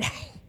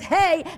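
First: It is said breathily from the back of the throat. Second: It is said plainly, without extra throat air.

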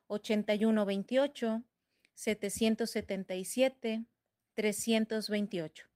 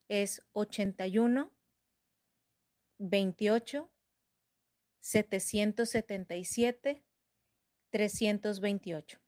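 First: The number is said at normal speed. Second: The number is said slowly.

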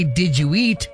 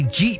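First: It is said fully in a standard accent. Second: It is squeezed together in a Jersey accent.

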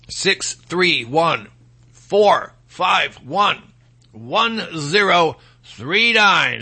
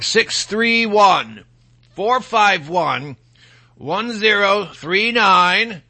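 First: The number is said more slowly. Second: The number is said at normal speed.

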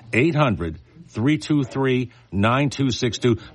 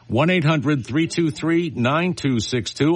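First: The number is read slowly. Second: The number is read quickly.

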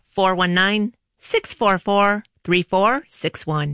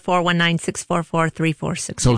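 First: The number is said slowly. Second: The number is said at normal speed.

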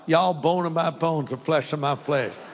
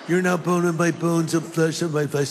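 First: It is said in a Southern US accent. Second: It is said in a California accent.

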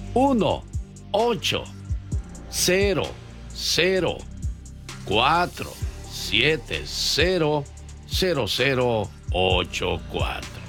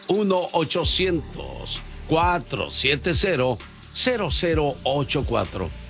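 First: The number is said slowly. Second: The number is said fast.

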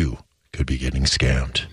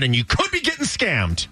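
First: It sounds serious, like a warning. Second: It sounds excited and upbeat.

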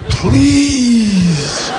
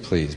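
First: It is said pleadingly, with desperate hope. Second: It is said flatly, without real hope.

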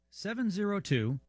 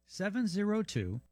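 No difference in how they are said.

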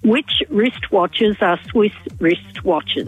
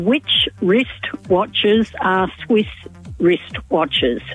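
First: It is said at a faster pace. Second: It is said at a normal pace.

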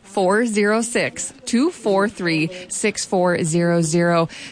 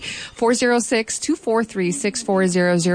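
First: The number is said slowly. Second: The number is said at normal speed.

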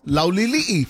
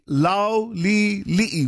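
First: The name is said fast. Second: The name is said slowly.

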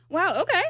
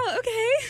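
First: It is said in a sarcastic tone. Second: It is said in a flirty tone.

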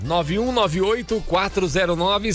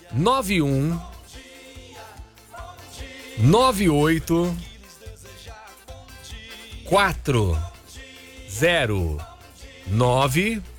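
First: The digits are said at normal speed. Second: The digits are said very slowly.

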